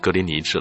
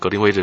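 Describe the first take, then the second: First: The third syllable is pronounced 'ni'. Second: The third syllable is pronounced 'wei'. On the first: The speaker calls it right. "实际上我们以前说过嘛，是格林尼治了" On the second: The speaker calls it wrong. "现在告诉我格林威治是错的"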